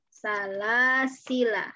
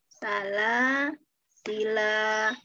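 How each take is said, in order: First: The word ends with a short final vowel. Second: The word ends with a lengthened final vowel. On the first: The reciter continues without stopping. "La-nya pendek ketika wasol" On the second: The reciter stops here. "alifnya kita pakai"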